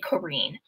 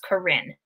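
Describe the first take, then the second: First: The last syllable rhymes with green. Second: The last syllable does not rhyme with green. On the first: This is how the name's owner says it. The speaker calls it right. "But it is actually" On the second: This is the usual American reading of the name. The speaker calls it wrong. "if you are from the United States, you're probably going to want to pronounce that as"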